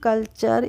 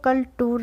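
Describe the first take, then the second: First: The second syllable sounds like 'cher'. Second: The second syllable sounds like 'toor'. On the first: The speaker calls it right. "इसको पढ़ेंगे हम कल्चर" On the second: The speaker calls it wrong. "इसको कल टूर नहीं पढ़ेंगे"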